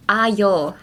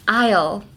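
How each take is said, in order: First: "Aisle" split into "ai-yol"; broken-down pronunciation. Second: "Aisle" said alone as one word; pronunciation demo. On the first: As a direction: stretch "Aisle" into two sounds, ai and yol. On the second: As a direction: model "Aisle" for learners. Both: Shown as a demonstration. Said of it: "a good way to help people say aisle".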